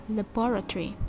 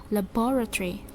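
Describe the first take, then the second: Both takes have the same delivery.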